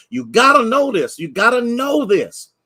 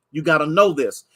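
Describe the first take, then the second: First: Preacher hammering the point; emphatic call. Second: Said in the usual way. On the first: Real, not acted. Preacher repeats line for emphasis.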